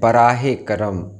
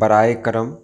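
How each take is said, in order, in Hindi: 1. पहले शब्द में 'h' की आवाज़ है। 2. पहले शब्द में 'h' की आवाज़ नहीं है। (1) "जबकि सही है" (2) "बहुत सारे लोग इस्तेमाल करते हैं"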